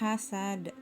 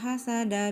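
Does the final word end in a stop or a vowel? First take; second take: stop; vowel. First: The word ends on a stopped final consonant. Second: The word ends with a vowel carried forward. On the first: The recitation stops at the end of the verse. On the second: The verse is joined to the following basmalah. "Jadi huruf da di sini tidak mati, disambung dengan basmalah"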